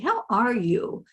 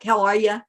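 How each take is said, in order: First: It is said slowly and sincerely, with care. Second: It is said as a quick, casual greeting.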